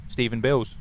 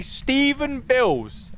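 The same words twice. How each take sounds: First: Said in the usual way. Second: Slow, high, drawn-out name; mock posh voice. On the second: Shown as a demonstration. Streamer showing the voice chat, drawn-out high. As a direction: say the name slowly like a stuffy butler. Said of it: "And then I say".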